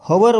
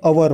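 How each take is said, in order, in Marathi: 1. याची सुरुवात उच्चारलेल्या h ने होते. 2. हा दोन अक्षरांचा शब्द आहे, त्यात h नाही. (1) "हवर जर म्हटलं तर तुमचं चुकलं, कारण एच जो आहे एच सायलेंट आहे" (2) "इंडियन लोक जे आहे ते अवर म्हणतात"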